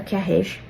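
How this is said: The slender R sounds like a 'zh'. This is how it is said in parts of Connacht and Munster. "the slender R is pretty much pronounced like a Z H sound"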